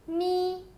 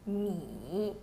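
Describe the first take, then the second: First: The pitch stays high and level. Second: The pitch dips low, then rises.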